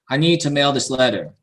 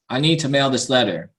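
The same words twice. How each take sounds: No difference in how they are said.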